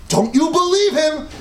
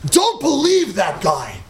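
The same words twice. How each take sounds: First: "Don't you believe him?" rising at the end on "believe", a laugh in it; incredulous question. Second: Said in the usual way. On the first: Shown as a demonstration. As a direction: ask it as an amused, disbelieving question. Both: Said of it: "this is the way we talk".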